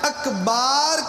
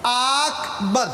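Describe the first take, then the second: First: The second vowel is drawn out long. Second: The first vowel is drawn out long. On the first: "अकबर को आकबर या अकबार कहा नमाज ना होगी" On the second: "अकबर को आकबर या अकबार कहा नमाज ना होगी"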